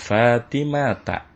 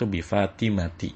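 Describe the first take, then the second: First: The word ends with an 'a' vowel. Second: The word ends with an 'i' vowel. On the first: The speaker calls it right. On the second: The speaker calls it wrong.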